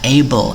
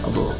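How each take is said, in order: First: The first vowel is a full vowel. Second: The first vowel is weak and reduced. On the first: The word stands alone. "kata berdiri sendiri, dia dibaca able" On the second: The word is used as a suffix. "menjadi akhiran ... dia dibaca able"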